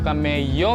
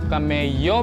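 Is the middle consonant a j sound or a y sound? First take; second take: y sound; y sound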